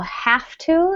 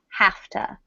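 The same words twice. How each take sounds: First: The words are said fully and separately. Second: The words are reduced and run together.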